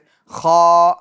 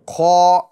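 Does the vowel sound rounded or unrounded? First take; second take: unrounded; rounded. First: It is said with unrounded lips. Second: It is said with rounded lips. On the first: The speaker calls it right. "गोल नहीं हो रहे" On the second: The speaker calls it wrong. "ये देखिए होंठ गोल हुए"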